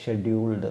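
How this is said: The word begins with a sh sound. This is the British way of saying it. "British സ്റ്റൈലിൽ അത് ഷെഡ്യൂൾഡ് എന്നാണ്"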